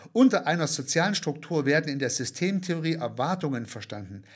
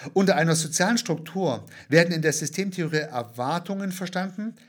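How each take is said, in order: The two takes are said the same way.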